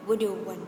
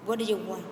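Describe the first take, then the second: First: The words run together in a reduced form. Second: The same.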